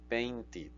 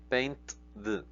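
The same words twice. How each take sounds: First: "Painted" ending in a clear "id" syllable. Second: "painted" squeezed as paint-d, no extra syllable; painted with plain D ending. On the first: Teacher showing "Painted" pronounced paint-id. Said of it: "va a cambiar su pronunciación a I D". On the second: Teacher showing the awkward "painted" said as paint-d. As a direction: say "painted" with a bare d after the t. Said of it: "Si lo intentamos T D". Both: Shown as a demonstration.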